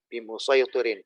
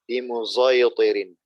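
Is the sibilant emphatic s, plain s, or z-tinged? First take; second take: emphatic s; z-tinged. First: The sibilant is an emphatic s sound. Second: The sibilant is an emphatic s mixed with z. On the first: This is one recognized reading of the word. "Imam Hafiz itu bacanya bimusaytirin, termasuk yang wabis sodi" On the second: This is a third recognized reading of the word. "ismamnya sod dengan suara zai"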